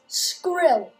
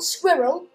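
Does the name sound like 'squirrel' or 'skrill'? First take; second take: skrill; squirrel. First: It sounds like skrill, one syllable without a w. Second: It sounds like the word squirrel, with a w. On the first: The speaker calls it right. "it's Skrill. S-K-R-I-L-L" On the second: The speaker calls it wrong. "It's not Squirrel"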